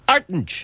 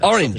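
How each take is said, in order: First: The word is said in a broad Dublin accent. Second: The word is said in a standard accent.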